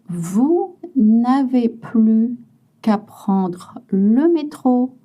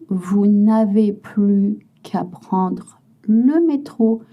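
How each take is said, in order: Both takes have the same delivery.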